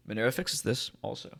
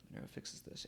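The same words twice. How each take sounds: First: Said in the usual way. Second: Breathy whispered aside. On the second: Shown as a demonstration. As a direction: whisper it like a secret. Catchphrase repeated in a whisper.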